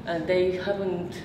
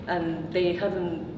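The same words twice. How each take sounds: The two takes are said the same way.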